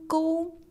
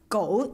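First: The pitch stays high and level throughout. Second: The pitch does not stay high and level. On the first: It means a ditch or channel. "1. Ton" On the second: It means dog. "Go ist der Hund"

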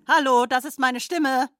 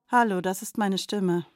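First: The sentence is spoken in an angry tone. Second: The sentence is spoken in a sad tone. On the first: "Bitte sprechen Sie diesen Satz nun wütend" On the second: "Bitte sprechen Sie diesen Satz nun traurig"

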